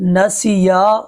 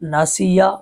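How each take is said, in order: First: The ya vowel is drawn out long. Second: The ya vowel is cut short. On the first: The speaker calls it right. "या को खींचना था" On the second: The speaker calls it wrong. "या को बगैर खांचे पढ़ दिया"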